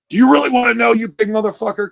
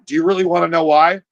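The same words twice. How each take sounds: First: High, loud confrontational challenge; pissed-off mom. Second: Mildly coaxing motherly question; sweet mom. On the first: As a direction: act the mother squaring up, fed up. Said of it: "she's getting a little pissed". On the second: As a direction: ask it gently, lightly acting the mom. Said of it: "that is so sweet". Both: Acted.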